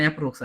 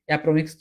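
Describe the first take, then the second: First: Said in the usual way. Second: "অ্যাপ্রোমিক্স" stumbled out with an extra m sound; mispronounced attempt. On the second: Shown as a demonstration. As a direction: fumble the word as "অ্যাপ্রোমিক্স". ("অ্যাপ্রোমিক্স" ভুল উচ্চারণে বলা) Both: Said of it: "দূর উচ্চারণই করতে পারি না".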